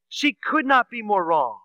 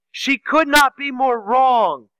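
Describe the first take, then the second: First: Said in the usual way. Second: Louder and slower, punching not; preacher driving home her mistake, "not" hammered loud and slow; emphatic declaration. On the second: Real, not acted. Preacher telling the congregation Mary was mistaken, emphatic and slow.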